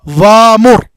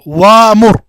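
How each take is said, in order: The two takes are said the same way.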